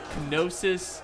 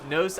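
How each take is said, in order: First: The word begins with an audible k sound. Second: The word begins without any k sound. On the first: This is the British pronunciation. "British people pronounce it Kenosis" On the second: This is the American pronunciation. "Americans pronounce it Gnosis"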